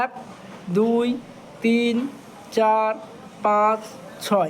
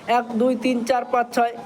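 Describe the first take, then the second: First: The counting is slow and spaced out. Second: The counting is quick and rushed.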